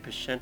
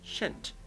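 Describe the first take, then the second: First: The word starts with a P sound. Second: The word starts with an SH sound. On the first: The speaker calls it wrong. "I want to say Pshent all the time. I know that's not true" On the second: The speaker calls it right. "It's Shent. Don't pronounce the P"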